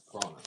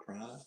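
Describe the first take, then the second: First: "Piranha" falling, with a long ah in the middle; settling on pronunciation. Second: "Piranha" tried softly, rising, with a short a as in "ran"; trying out pronunciation. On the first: Correcting himself on the fish's name, falling "Piranha". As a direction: answer yourself, "Piranha" with an ah vowel. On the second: Unsure how to say the fish's name, questioning "Piranha". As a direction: question "Piranha" with a flat-a middle syllable. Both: Shown as a demonstration.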